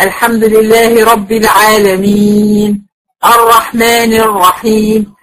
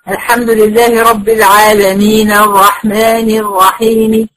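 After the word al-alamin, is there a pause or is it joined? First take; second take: pause; joined. First: It stops after al-alamin, with a long final vowel. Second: It runs straight on, with a short final vowel. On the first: "الاولانيه مدتها وريحت المد" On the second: "لو انا وصلتهم ببعض"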